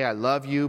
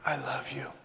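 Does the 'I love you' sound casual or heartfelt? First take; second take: casual; heartfelt. First: It is said casually, without much feeling. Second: It is said warmly, with convincing feeling. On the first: The speaker means only mild liking. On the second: The speaker seems to mean deep devotion.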